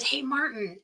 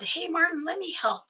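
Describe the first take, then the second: First: Said in the usual way. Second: High, gentle coaxing; coaxing plea. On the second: Retold or imitated. Sister coaxing her brother-in-law, pitched high. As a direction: sweetly ask to be let in, pitched high.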